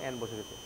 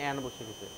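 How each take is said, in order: The two takes are said the same way.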